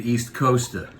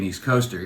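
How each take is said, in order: First: "Coaster" ending in "-uh", no R; R dropped. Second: Said in the usual way. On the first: Shown as a demonstration. Comic showing how East Coasters say it, R dropped in "Coaster". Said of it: "we don't pronounce our R's". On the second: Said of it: "on the East Coast, this would not be".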